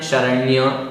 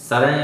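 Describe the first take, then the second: First: The word ends in a 'nya' sound. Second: The word ends in a plain 'n' sound. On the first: The speaker calls it right. "शरण्य ऐसा बोलना है" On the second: The speaker calls it wrong. "शरण नहीं बोलना है"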